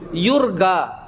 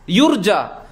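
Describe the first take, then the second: First: It is said the Egyptian way, with g. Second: It is said the standard Arabic way, with j.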